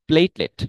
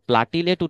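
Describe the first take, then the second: First: It is said with two syllables, plate-let. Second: It is said with three syllables, plat-i-let. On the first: The speaker calls it right. "আসলে সঠিক উচ্চারণ হচ্ছে প্লেটলেট" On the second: The speaker calls it wrong. "অনেকে এটাকে আমরা প্লাটিলেট উচ্চারণ করি"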